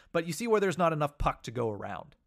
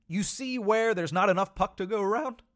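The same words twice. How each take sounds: First: Said in the usual way. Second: Real voice crack up high at the end; voice squeaking. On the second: Real, not acted. Podcaster making a point about the puck, voice squeaking. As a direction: let the voice squeak accidentally on the last words. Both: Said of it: "my voice just squeaked very badly".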